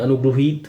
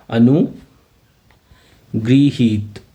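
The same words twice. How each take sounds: First: अनुगृहीत with the middle said as ग्रु, anu-gru-heet; southern gru pronunciation. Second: अनुगृहीत drawn out very slowly, every syllable spaced apart; slow careful pronunciation. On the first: Teacher showing students the ग्रु reading of अनुगृहीत. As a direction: say अनुगृहीत the way Gujarati and Telugu speakers do, with ग्रु. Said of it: "वो ग्रु पढ़ते हैं". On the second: Teacher to exam students, slow careful demo of अनुगृहीत. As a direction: spell it out in sound, अनुगृहीत, one syllable at a time. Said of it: "उसको आप ध्यान से देख लीजिएगा". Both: Shown as a demonstration.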